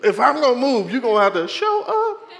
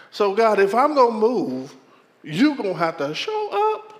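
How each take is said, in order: First: Higher, louder demand with a laugh; challenging God. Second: Firm raised demand; challenging God. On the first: Pastor repeating his challenge to God, louder. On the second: Pastor challenging God to show up, firm and raised. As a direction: lay down the condition to God. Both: Retold or imitated. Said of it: "I said it just like that".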